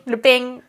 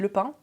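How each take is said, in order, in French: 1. Il est prononcé avec un accent du Sud de la France. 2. Il est prononcé avec un accent français standard. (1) "des gens qui disaient le pain" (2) "Et moi, je dis le pain"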